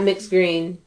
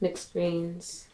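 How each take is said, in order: First: The final s sound is dropped. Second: The final s sound is clearly heard. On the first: The speaker calls it wrong. "Not mixed green" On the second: The speaker calls it right. "you got to say mixed greens"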